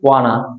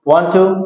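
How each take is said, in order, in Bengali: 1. শব্দগুলো সংক্ষেপ হয়ে একসাথে মিশে যায়। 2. দুটো শব্দই পূর্ণভাবে আলাদা করে বলা হয়।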